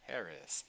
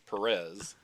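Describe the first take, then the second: First: The stress is on the first syllable. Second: The stress is on the second syllable. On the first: The speaker calls it right. "with the accent mark over the first E" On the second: The speaker calls it wrong. "It's not George Perez"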